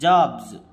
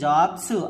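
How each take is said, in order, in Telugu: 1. ఈ పదం బజ్ చేసే z శబ్దంతో ముగుస్తుంది. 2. ఈ పదం హిస్సింగ్ s శబ్దంతో ముగుస్తుంది. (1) "జ జ జాగా మారిపోయింది... జాబ్స్ జాబ్స్ అనాలి" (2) "దీన్ని జాబ్స్ అనకూడదు"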